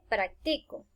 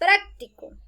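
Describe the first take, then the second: First: The stress is on the middle syllable. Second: The stress is on the first syllable. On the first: I do it now. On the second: It means useful or handy.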